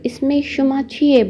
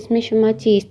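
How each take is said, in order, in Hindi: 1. आखिरी शब्द छोटा करके बोला जाता है, 'e' पर खत्म होता है। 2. आखिरी शब्द पूरा बोला जाता है, 'ast' पर खत्म होता है। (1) "शॉर्टकट बोलना चाहें" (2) "रिटन में यानी अदबी फ़ारसी में"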